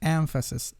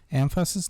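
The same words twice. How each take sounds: First: The stress falls on the first syllable. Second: The stress falls on a later syllable. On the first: The speaker calls it right. "The stress is on the first syllable" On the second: The speaker calls it wrong.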